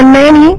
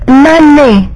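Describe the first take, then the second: First: The final vowel sounds like 'ee'. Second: The final vowel sounds like 'ay'. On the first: The speaker calls it wrong. "I think you say nani" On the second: The speaker calls it right. "it's nane"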